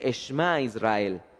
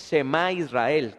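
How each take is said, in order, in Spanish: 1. El sh y la m se unen sin vocal. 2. Una vocal completa separa el sh y la m. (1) "se dice Eshma Israel" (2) "no se dice Shema Israel, como muchas veces las personas dicen"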